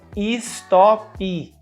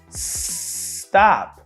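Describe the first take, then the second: First: Extra vowels are added at the start and end. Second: The word starts and ends on consonants. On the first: The speaker calls it wrong. "a gente coloca uma vogal epentética no início e no final" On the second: The speaker calls it right. "A palavra que teria que ser pronunciada stop"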